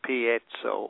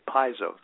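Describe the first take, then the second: First: The word is given an Italian pronunciation. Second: The word is given an anglicized pronunciation. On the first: "It's pronounced in Italian" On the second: "or some people say"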